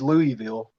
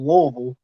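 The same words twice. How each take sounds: First: The word is said crisply, each syllable clear. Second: The word is mumbled, as if through food. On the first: This is the proper pronunciation of the city. "the correct pronunciation is Louisville" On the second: This is how most locals say the city's name. "which sounds like you got a bunch of food"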